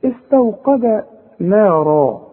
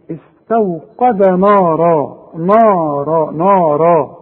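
First: Slow recitation, نا thin and fronted, heavy را; light noon in نارا. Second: Slow نارا with a thick, dark, backed نا; mock the mistake, swelling نا to match را; wrong heavy noon. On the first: Teacher models the correct verse, نارا with thin noon. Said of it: "انا قلتها صحيحة". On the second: Teacher imitates the untrained reader, نارا with heavy noon. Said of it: "اللي ما عندوش فكرة بقى عن نطق الحروف يقول ايه". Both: Shown as a demonstration.

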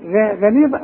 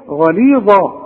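First: غليظة with a thin, fronted "ghae"; wrongly thin Ghayn. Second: غليظة with a dark "gha" opening; emphatic, backed first vowel in غليظة; correct heavy Ghayn. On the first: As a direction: lighten the start of غليظة, as a doubting question. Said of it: "هتقول إيه؟". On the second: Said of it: "والصح". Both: Shown as a demonstration.

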